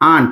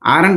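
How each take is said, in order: First: It is said as one syllable, aant. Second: It is said as two syllables, aa-rant. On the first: The speaker calls it right. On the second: The speaker calls it wrong. "ఆరంట్ అనకూడదు"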